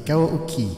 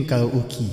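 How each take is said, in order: First: "karaoke" higher, in a cutesy mimicked way; cute imitation. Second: Said in the usual way. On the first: Tester echoing the karaoke preset's name, cute imitation. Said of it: "Ang cute ng pagkasabi niya".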